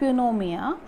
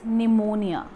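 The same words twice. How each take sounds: First: The initial P sound is pronounced. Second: The initial P sound is silent. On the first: The speaker calls it wrong. "This is not pneumonia" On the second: The speaker calls it right. "it is pneumonia"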